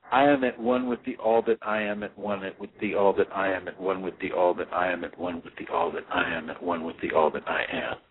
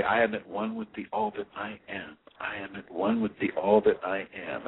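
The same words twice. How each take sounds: First: Overlapping mantra. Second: Each mantra line said whole, then a pause; separate mantra lines. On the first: Meditation teacher shows students the endless mantra, run together without pauses. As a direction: run the repeats together with no pause, fading lower. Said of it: "I would say it like this". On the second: Meditation teacher shows students the repeated mantra, a pause after each. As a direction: repeat it as separate calm sentences. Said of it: "is I would say". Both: Shown as a demonstration.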